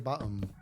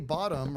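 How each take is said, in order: First: It is said in an imitated British accent. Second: It is said in a plain, everyday accent. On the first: "They say bottom" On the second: "they don't say bottom"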